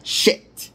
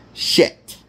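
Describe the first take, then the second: First: "Shit" whispered, stressing the sh and the t; correct word shit again. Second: "Shit" whispered with a crisp final t; correct word shit. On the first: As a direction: repeat "Shit" so it can't be heard as ship. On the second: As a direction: say "Shit" clearly, not ship. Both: Shown as a demonstration. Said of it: "is what I meant to say".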